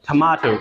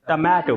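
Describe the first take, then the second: First: The t has a light breathy burst. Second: The t is said without a breath burst. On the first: "but वो बोलते हैं टमाटो" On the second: "हम कहते हैं टमाटो"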